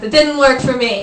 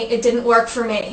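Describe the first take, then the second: First: It is said in a thick Italian accent. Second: It is said in the speaker's ordinary accent.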